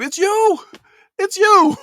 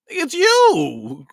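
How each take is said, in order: First: Very high, loud mock yell of "It's you"; [name] shout. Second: High, louder cry of "it's you"; imitating the mom. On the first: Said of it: "I feel like [name]". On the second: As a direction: voice the mother clinging to her daughter, pitched up. Mom hugging daughter, quoted.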